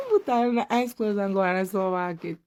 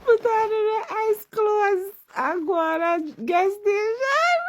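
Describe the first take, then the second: First: Said in the usual way. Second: Higher and slow, hammed-up excitement; mock-excited high exclaim. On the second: Joking to viewers about wearing ice clothes, hammed-up high exclaim. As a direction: stretch it out like a gleeful plan.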